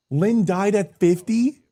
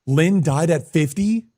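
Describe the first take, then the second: First: Incredulous. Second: Surprised. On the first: Repeated, more shocked. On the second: Repeated shocked question. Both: Real, not acted.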